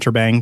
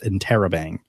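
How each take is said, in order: First: No vowel sound comes between 'inter' and 'bang'. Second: An extra vowel sound comes between 'inter' and 'bang'. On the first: The speaker calls it wrong. "I kept pronouncing it wrong. I kept calling it Interbang" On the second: The speaker calls it right. "but it's Interrobang"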